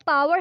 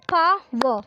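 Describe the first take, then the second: First: Said in the usual way. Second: Power broken into pa and wer; syllable by syllable. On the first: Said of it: "has two syllable". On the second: Shown as a demonstration. Teacher counts syllables with learners, power in separate beats. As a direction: say power in two beats with a gap. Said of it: "word power has two syllable".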